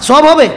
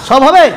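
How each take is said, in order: The two takes are said the same way.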